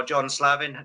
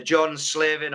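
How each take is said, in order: First: Slavin said as SLAV-in, open a; alternative pronunciation. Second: Slavin said as SLIV-in, short i; first pronunciation variant. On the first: Interviewer offering another way to say an award's name, Slavin as SLAV-in. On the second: Interviewer offering one way to say an award's name, Slavin as SLIV-in. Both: Shown as a demonstration. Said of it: "depending on how you pronounce it".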